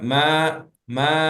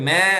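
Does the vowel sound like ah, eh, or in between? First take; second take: between; eh. First: The vowel lies between ah and eh. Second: The vowel sounds like eh, a bleat. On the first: The speaker calls it right. "இன்டர்மீடியேட்டா" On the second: The speaker calls it wrong. "மே மேன்னு சொல்லக்கூடாது இந்த ஆடு கத்துற மே சவுண்டும் கிடையாது"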